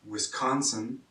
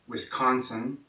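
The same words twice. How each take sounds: No difference in how they are said.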